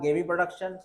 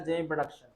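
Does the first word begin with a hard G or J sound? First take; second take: hard G; J. First: The first word begins with a hard G sound. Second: The first word begins with a J sound. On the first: "कोई बोलेगा गेमी production" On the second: "कोई बोलेगा जेमी production"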